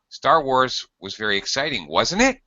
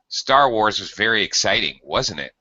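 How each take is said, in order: First: The pitch rises on the final tag. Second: The pitch falls on the final tag. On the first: It is a real question. "if we use rising pitch in the tag" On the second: It is a statement to spark conversation. "with a falling pitch on the tag"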